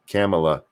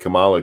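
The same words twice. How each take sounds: First: The name sounds like Pamela with a K. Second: The name sounds like the word camel. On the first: "Her name is pronounced like Pamela with a K" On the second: "that makes it sound like Camela toe"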